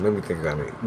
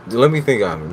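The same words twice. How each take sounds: First: Much softer private repeat; soft muttered musing; quiet to himself. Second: Said in the usual way. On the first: Real, not acted. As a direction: drop it almost under your breath.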